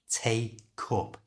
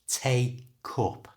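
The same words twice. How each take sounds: The two takes are said the same way.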